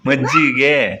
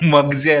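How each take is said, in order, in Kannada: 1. ಪದವನ್ನು ಪೂರ್ತಿಯಾಗಿ, ಮೂರು ಉಚ್ಚಾರಾಂಶಗಳಿಂದ ಹೇಳಲಾಗಿದೆ. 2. ಪದವನ್ನು ಸಂಕುಚಿತವಾಗಿ ಹೇಳಲಾಗಿದೆ, 'gi' ಅಕ್ಷರ ಬಿಟ್ಟಿದೆ. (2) "ಮಗ್ಜೆ ಅಲ್ಲ"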